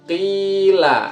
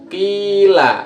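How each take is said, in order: No difference in how they are said.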